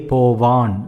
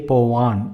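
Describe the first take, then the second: The two takes are said the same way.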